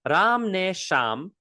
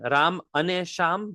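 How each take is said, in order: First: The middle word is the short form ne. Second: The middle word is the full form ane. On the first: This is how people usually say it in speech. "they usually pronounce it as ne" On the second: This is the full form of the word. "Again, Ram ane sham, but we pronounce it as ne"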